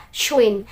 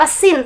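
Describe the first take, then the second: First: "shwin" drawn out with sh; correct sound "shwin". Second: "sin" with a plain s; wrong sound "sin". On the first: Teacher gives the right letter sound, "shwin" with sh. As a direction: say "shwin" slowly with rounded sh. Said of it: "tapi suara shwin". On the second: Teacher contrasts two Arabic letters, "sin" with plain s. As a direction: say "sin" without any sh. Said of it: "Jangan seperti suara sin". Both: Shown as a demonstration.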